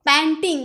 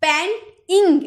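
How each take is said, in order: First: Said in the usual way. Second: "पेंटिंग" slowly in two separate beats, पेंट... इंग; split into syllables. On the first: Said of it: "दो syllable". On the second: Shown as a demonstration. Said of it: "दो ठो हो गया ना".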